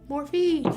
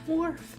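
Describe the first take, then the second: First: The name is said as two syllables. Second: The name is said as one syllable. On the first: This is the brand's proper name. The speaker calls it right. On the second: This is how the husband says the brand name. The speaker calls it wrong.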